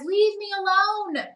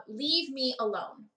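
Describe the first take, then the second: First: A student pushing the teacher away, pitched higher and slow; slow, higher sulky kid; lightly voiced sulky student telling the teacher to back off; upset student. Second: Said in the usual way. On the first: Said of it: "I might have a student that says". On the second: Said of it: "let's do an example of".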